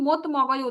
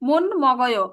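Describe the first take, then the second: First: The first word ends with a t sound. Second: The first word ends with an n sound. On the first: The speaker calls it wrong. "এখানে কিন্তু মত মগয় উচ্চারণ হবে না" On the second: The speaker calls it right. "এখানে উচ্চারণ কি হবে"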